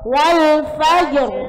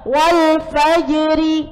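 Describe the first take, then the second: First: The phrase stops on a heavy r sound. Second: The phrase ends with a short vowel after r.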